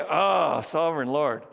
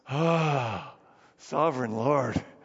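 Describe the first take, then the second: First: The exclamation sounds plain and calm. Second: The exclamation sounds pained and anguished. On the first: It is an ordinary address. "So we say" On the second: The speaker is discouraged and does not understand. "I think he said it this way, ... It's an expression of pain"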